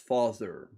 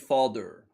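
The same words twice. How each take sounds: First: The middle sound is a clear th. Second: The middle sound is said like a d. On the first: The speaker calls it right. "it's father" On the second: The speaker calls it wrong. "Dutch people, they're inclined to say father. But that's not how you say it"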